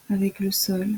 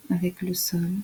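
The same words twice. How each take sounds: The two takes are said the same way.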